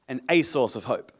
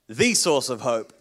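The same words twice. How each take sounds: First: "a" stressed, said "ay" with weight. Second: "the" stressed, said "thee" with weight. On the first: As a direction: lean on "a" in "a source of hope". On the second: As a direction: lean on "the" in "the source of hope". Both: Shown as a demonstration. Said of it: "big difference between the and a".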